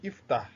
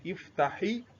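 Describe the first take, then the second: First: The word ends with a bare consonant. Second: The word ends with a short i vowel. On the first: It is said on its own. "if I want to pronounce it ordinarily, ... With sukun" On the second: It is joined to the following word. "I give this one kesro"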